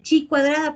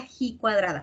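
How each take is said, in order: First: The first word starts with a ch sound. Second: The first word starts with a throaty h. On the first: The speaker calls it wrong. "a veces dice chi cuadrada" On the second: The speaker calls it right. "se pronuncia G cuadrada"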